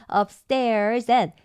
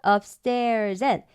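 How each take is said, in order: The two takes are said the same way.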